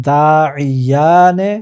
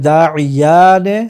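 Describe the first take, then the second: The two takes are said the same way.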